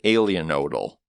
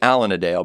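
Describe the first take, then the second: First: The name ends with an 'odal' sound. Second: The name ends with a 'dale' sound. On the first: The speaker calls it right. "but it is in fact Alienodal" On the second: The speaker calls it wrong. "We thought it was Alanadale"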